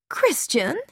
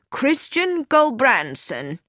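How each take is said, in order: First: Surprised. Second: Said in the usual way. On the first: A narrator's reading. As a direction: catch the name as unexpected news. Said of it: "Carrie Louise looked surprised". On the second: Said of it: "A telegram has just come".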